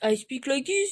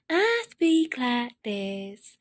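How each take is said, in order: First: It is said in a French-sounding character voice. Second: It is said in Missus Couch's character voice.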